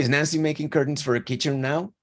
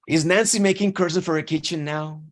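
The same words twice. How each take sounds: First: It sounds like a plain, curious question. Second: It sounds annoyed, like a complaint. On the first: The asker simply wants to know what is happening. "escuchen el tono de mi voz" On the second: The asker is fed up with the constant mess. "The tone changed. It's a complaint"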